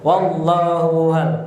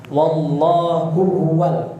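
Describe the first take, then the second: First: The second h is merged into the first. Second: Both h sounds are pronounced clearly and separately. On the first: The speaker calls it wrong. "bukan wallahu wal" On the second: The speaker calls it right. "dua hak bertemu harus jelas"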